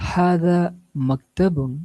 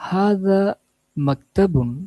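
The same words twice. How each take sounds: No difference in how they are said.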